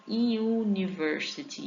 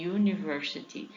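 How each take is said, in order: First: University with a clear yu at the start; slow yu sound. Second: Said in the usual way. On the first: Shown as a demonstration. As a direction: stretch out the yu in university. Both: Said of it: "entra nessa regrinha de I U".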